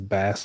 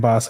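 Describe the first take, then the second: First: The vowel is the short 'a' of bass. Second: The vowel is the 'aw' sound of boss. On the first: The speaker calls it right. "he says bass like the fish" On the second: The speaker calls it wrong. "I keep saying boss"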